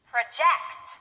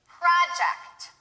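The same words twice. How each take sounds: First: The stress is on the second syllable. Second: The stress is on the first syllable. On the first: It is used as a verb. "The second one will be stressed on the second syllable, that's the verb" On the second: It is used as a noun. "The first one will be stressed on the first syllable, that's the noun"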